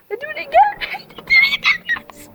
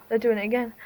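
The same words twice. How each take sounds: First: Very high, giddy squeal; giddy excitement. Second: Said in the usual way. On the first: Real, not acted. Telling lads the fireworks are starting again, giddy excitement. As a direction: squeal it, climbing higher on the repeat.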